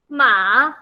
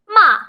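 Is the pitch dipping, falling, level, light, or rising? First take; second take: rising; falling. First: The pitch rises from middle to high. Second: The pitch falls sharply from high to low. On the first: It means fiber or hump. "going up" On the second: It means to scold. "going down really hard"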